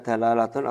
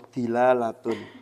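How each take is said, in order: First: The first vowel is an 'a' sound. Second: The first vowel is an 'i' sound. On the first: "bisa di fathah dalnya" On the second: "atau kasroh dalnya"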